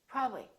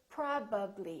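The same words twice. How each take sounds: First: The word is shortened, with consonants dropped. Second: Every consonant is fully pronounced. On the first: The speaker calls it wrong. "So don't take any shortcuts. Don't say probably" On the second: The speaker calls it right. "My lips have to open and close three times"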